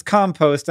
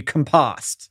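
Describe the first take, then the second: First: "compost" as COM-post, like a noun; noun stress. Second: "compost" as com-POST, like a verb; verb stress. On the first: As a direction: stress the first syllable of "compost". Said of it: "the noun is compost". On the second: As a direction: stress the second syllable of "compost". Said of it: "then the verb would be". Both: Shown as a demonstration.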